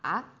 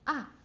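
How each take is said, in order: First: The pitch dips low, then rises again. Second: The pitch drops sharply from high to low. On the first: "remember the roller coaster?" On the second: "like a bungee jump"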